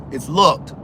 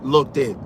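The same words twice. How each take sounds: First: "looked" as one clean beat with final t; firm teacherly "looked", no second syllable. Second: "Looked it" as two beats, look-tid; "Looked it" with a vowel tacked on; two-syllable mistake. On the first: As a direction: correct it to a single-syllable "looked". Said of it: "Looked is one syllable". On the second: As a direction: demonstrate the extra syllable in "Looked it". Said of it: "not two". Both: Shown as a demonstration.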